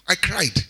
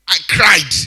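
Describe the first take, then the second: First: Said in the usual way. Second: Whimpered I cried, mock weeping; mock cry. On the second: Shown as a demonstration. Pastor acts out crying over family, whimpering. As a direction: act out the crying.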